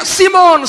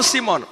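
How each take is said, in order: First: Loud, high call of the name; urgent shout. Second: Said in the usual way. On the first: Acted. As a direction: call out sharply to get his attention. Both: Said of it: "Tiba-tiba dia teriak".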